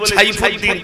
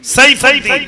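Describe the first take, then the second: First: The name begins with a ch sound. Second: The name begins with a dental s sound. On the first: The speaker calls it wrong. "তাহলে কি অক্ষর আসলো? ... ছ" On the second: The speaker calls it right. "দন্ত স দিয়ে সাইফুদ্দিন"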